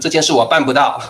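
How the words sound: It is said in a rude tone.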